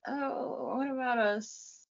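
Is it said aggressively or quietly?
quietly. It is said quietly and gently.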